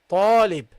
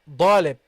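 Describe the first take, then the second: First: The word begins with a t sound. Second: The word begins with a d sound. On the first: The speaker calls it right. "It is ta, ta, talib" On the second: The speaker calls it wrong. "sometimes I hear dalib"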